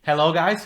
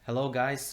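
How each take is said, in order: First: It is said with lively energy. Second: It is said flatly, without energy.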